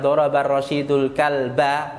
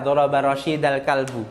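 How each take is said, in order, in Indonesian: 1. Rashid diakhiri dengan u, dan kalb diakhiri dengan a. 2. Rashid diakhiri dengan a, dan kalb diakhiri dengan u. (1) "Yang awalnya" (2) "karena kita salah membaca"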